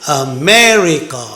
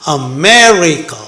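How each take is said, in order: Both takes have the same delivery.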